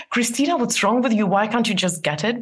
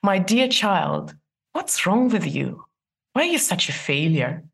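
First: Harsh self-talk. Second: Tender self-talk. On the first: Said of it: "Try replacing, not". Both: Shown as a demonstration.

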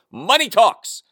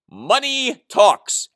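First: Said in the usual way. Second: Money talks drawn out slow and high; a slow, weighty money talks; slow knowing emphasis. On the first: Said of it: "As A C D C told us". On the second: Shown as a demonstration. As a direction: let money talks land slowly. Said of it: "As we all know".

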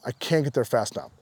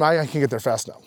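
First: Dropped to a quiet, softer echo; a softer, inward second take; softer repeat. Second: Said in the usual way. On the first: Retold or imitated. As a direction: repeat it under the breath, softer. Repeated eager line.

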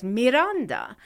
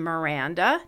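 First: "Miranda" said mee-RAHN-dah; Spanish pronunciation. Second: "Miranda" said muh-RAN-duh; flat English A in the middle of "Miranda"; English pronunciation. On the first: Host giving the Mexican family surname, mee-RAHN-dah. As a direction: open Spanish vowels in "Miranda", AH in the middle. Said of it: "who was from Mexico". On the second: Host giving her daughter's English name, muh-RAN-duh. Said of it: "the English pronunciation Miranda". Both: Shown as a demonstration.

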